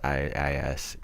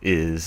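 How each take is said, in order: First: It is spelled out as two letters. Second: It is said as one word, 'is'.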